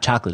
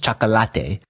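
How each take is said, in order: First: The word is pronounced with English sounds. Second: The word is pronounced with Spanish sounds. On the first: This is how it is said at home. The speaker calls it wrong. "Chocolate is not chocolate" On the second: This is how it is said in Argentina. The speaker calls it right. "it's chocolate"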